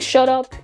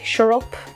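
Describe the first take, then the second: First: The t in 'shut' is a clear t. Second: The t in 'shut' sounds like an r. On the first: "Instead of saying shut up" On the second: "you say shut up"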